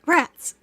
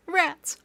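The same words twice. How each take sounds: First: Higher and louder, a punchy playful yell; gleeful shout. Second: Higher, bouncy playful yell; gleeful shout. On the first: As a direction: bark it out like a rallying cry. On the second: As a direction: throw it out like a cheer. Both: Pretend. Streamer cheering in sewer.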